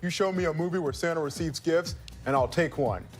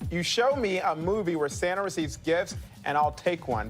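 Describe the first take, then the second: First: It is read in a put-on impersonation voice. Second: It is read in the speaker's ordinary voice.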